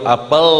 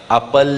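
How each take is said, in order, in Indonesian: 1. Bunyi l dibuat dengan lidah lebih ke belakang. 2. Bunyi l dibuat dengan lidah lebih ke depan. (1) "lamnya sampai ke langit-langit atas itu, itu alnya Indonesia" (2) "Tapi lamnya Quran"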